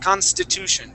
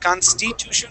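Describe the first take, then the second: First: The vowel after 'st' is a short I. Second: The vowel after 'st' is not a short I. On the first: The speaker calls it right. "we want to say consti" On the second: The speaker calls it wrong. "instead of saying constitution"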